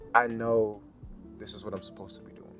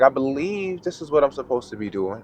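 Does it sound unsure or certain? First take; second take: certain; unsure. First: It sounds certain, like a firm statement. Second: It sounds unsure, like a question.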